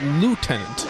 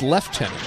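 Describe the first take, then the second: First: It is pronounced the American way. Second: It is pronounced the British way. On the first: "in America, it's lieutenant" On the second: "In our overseas brethren, it's lieutenant"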